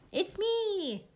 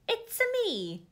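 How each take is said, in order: First: It is said in her normal voice. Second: It is said in a Mario impression.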